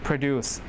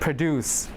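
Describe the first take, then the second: First: The stress is on the second syllable. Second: The stress is on the second syllable.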